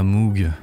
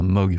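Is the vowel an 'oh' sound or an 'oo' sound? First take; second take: oo; oh. First: The vowel is a long 'oo' sound. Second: The vowel is a short 'oh' sound. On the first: This is the speaker's habitual way of saying it. "je dirais Moog parce que j'ai trop l'habitude" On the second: This is how some people say it. "pour certains. Enfin, je crois que c'est même comme ça que ça se dit"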